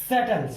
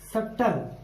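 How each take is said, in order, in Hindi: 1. शब्द के बीच में b की ध्वनि सुनाई नहीं देती। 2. शब्द के बीच में b की ध्वनि सुनाई देती है। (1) "बी की ध्वनि नहीं आई" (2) "हम इसको सटल नहीं कह सकते"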